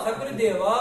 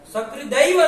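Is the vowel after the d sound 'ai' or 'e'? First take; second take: e; ai. First: The vowel after the d is 'e'. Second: The vowel after the d is 'ai'. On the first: The speaker calls it right. "सकृद एव" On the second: The speaker calls it wrong. "सकृदैव नहीं"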